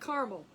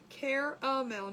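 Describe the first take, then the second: First: The word has two syllables, dropping the middle vowel. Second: The word has three syllables, with the middle vowel. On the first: The speaker calls it wrong. "not caramel" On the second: The speaker calls it right. "There is an A"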